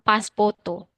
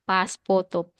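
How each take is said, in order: First: The word is said in a Japanese accent, ending 'poto'. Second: The word is said in a Japanese accent, ending 'poto'.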